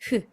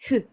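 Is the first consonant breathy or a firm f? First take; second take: breathy; breathy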